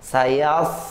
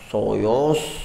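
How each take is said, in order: First: The first consonant sounds light and thin. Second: The first consonant sounds heavy and thick. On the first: The speaker calls it right. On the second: The speaker calls it wrong.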